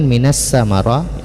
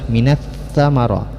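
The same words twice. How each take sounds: First: The consonant is said with a hissing s sound. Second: The consonant is said without hissing, tongue on teeth. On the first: The speaker calls it wrong. "Jangan sampai berdesis, jangan" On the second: The speaker calls it right. "Yang benar adalah"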